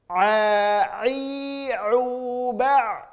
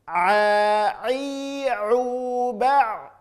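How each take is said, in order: Both takes have the same delivery.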